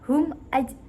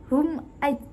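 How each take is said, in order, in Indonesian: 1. Bunyi m diucapkan dengan jelas dan tegas. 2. Bunyi m diucapkan dengan jelas dan tegas.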